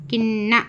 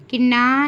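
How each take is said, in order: First: "किन्ना" with held n and short final "na"; short vowel. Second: "किन्ना" with a long "naa" at the end; wrong long vowel. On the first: Teacher giving the correct reading, किन्ना ending short. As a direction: hold the n, clip the last vowel of "किन्ना". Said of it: "सिर्फ किन्ना". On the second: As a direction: stretch the last vowel of "किन्ना". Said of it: "लंबा नहीं करना". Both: Shown as a demonstration.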